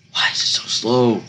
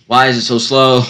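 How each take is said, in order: First: Said in the usual way. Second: Louder, exasperated repeat. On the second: Real, not acted. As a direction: raise it in frustration.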